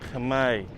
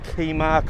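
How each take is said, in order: First: K goes straight into M, rhyming with May. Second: A vowel is inserted between the K and M. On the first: The speaker calls it right. "like a K with the with the uh, month May" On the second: The speaker calls it wrong. "foreigners struggle to pronounce the spelling of Khmer. They're calling it"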